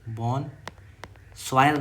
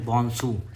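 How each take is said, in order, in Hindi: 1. अंत 'soyal' की तरह बोला जाता है। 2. अंत 'soo' की तरह बोला जाता है। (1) "बॉन सॉयल नहीं"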